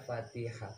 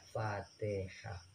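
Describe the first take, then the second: First: The middle vowel sounds like i. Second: The middle vowel sounds like e. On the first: This is how local speakers say it. "Kalau kita kan baca Fatihah" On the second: This is how Javanese speakers say it. "Kalau di Jawa Fatihah"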